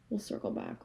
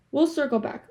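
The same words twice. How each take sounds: First: A quiet whisper to herself; whispered aside. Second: Firm announcement. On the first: Promising viewers to return to the topic, whispered. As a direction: murmur it under your breath. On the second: Telling viewers she will return to the topic, firmly. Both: Pretend.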